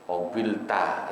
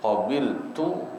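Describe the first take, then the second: First: The final syllable ends with an 'a' vowel. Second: The final syllable ends with a 'u' vowel. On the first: The speaker calls it wrong. "dibaca ta fathah" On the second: The speaker calls it right. "yang harusnya rafa tu"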